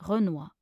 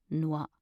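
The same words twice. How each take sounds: First: Said in the usual way. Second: Two syllables with a long gap. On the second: Shown as a demonstration. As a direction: pause between the syllables. Pronunciation guide, broken-down take.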